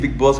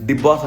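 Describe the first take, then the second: First: The first word begins with a b sound. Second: The first word begins with a d sound. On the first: The speaker calls it right. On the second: The speaker calls it wrong.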